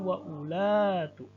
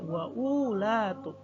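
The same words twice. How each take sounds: First: No w sound follows the glottal stop. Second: A w sound follows the glottal stop. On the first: The speaker calls it right. "ini wawunya tidak dianggap, tidak dibaca. Menjadi" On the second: The speaker calls it wrong. "Tidak dibaca"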